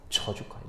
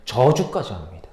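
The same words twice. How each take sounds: First: 저주까지 breathed in a soft unvoiced whisper; a hushed whispered 저주까지; whispered echo. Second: Said in the usual way. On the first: Shown as a demonstration. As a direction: whisper 저주까지 back to yourself.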